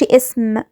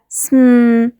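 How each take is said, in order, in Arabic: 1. فيه حركة قصيرة قبل الـ s. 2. صوت الـ s بيبدأ على طول من غير حركة. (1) "ما أقولش اسم" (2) "لأ سم"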